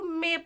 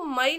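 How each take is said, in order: First: The vowel sounds like 'ay'. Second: The vowel sounds like 'eye'. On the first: The speaker calls it right. "इसको मे पढ़ेंगे" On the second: The speaker calls it wrong. "इसको मई नहीं पढ़ेंगे"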